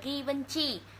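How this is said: The name is said with Vietnamese-style sounds. "Mình đọc tiếng Việt là Givenchy"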